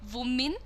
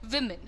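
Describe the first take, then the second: First: The first vowel is a long ee sound. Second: The first vowel is a short i sound. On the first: The speaker calls it wrong. "it is not women" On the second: The speaker calls it right. "it is women"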